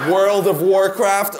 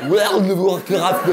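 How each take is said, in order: First: Put-on "World of Warcraft" in a light French-accented English, slow; mock French speaker saying "World of Warcraft". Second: Put-on "World of Warcraft" with a heavy French accent, slow, a shouted laugh; exaggerated French accent. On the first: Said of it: "j'adore quand les Français essaient de prononcer". (accent français léger sur « World of Warcraft ») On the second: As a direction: ham up a French person mangling "World of Warcraft". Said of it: "c'est très dur". (accent français exagéré sur « World of Warcraft », en riant)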